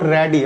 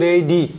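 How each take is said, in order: First: The first vowel sounds like 'a' in cat. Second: The first vowel sounds like 'ay'. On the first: The speaker calls it wrong. "Not র্যাডি" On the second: The speaker calls it right. "রেডি এর pronunciation কিন্তু রেডি"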